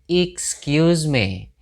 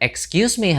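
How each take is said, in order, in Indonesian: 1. Vokal pertama dari 'excuse' terdengar seperti 'ih'. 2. Vokal pertama dari 'excuse' terdengar seperti 'eh'. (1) "tapi excuse me … pakai i" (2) "bukan excuse me harusnya … pakai i bukan e"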